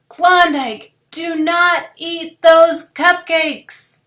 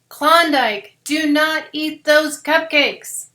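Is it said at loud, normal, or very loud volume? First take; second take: very loud; loud. First: It is said really loudly. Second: It is said a little louder.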